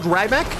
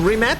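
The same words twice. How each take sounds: First: The name is said with another anglicized pronunciation. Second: The name is said with Croatian pronunciation. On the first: The speaker calls it wrong. "not Rimac" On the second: The speaker calls it right. "I'm saying Rimac"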